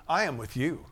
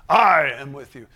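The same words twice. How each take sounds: First: "you" lifted at the end, "I" not punched; stress on YOU. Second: "I" stretched and hit very loud; stress on I. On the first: Preacher correcting the emphasis of a verse, stress on "you". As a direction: shift the weight onto "you". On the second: Preacher showing emphasis on a verse, loud stress on "I". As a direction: punch the word "I" hard, then ease off. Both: Shown as a demonstration. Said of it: "put the emphasis on a lot of things".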